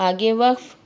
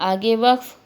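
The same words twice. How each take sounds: Both takes have the same delivery.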